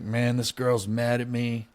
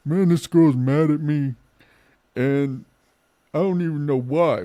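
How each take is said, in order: First: Said in the usual way. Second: Put-on "Man, this girl's mad at me" whined much higher and louder in a drunk voice; drunk whining. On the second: Shown as a demonstration. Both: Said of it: "Like, sorry, hold on".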